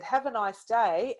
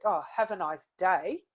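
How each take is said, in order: First: Said in the usual way. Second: Sarcastic. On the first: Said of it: "you might read that two ways". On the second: Shown as a demonstration. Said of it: "a little bit sarcastic".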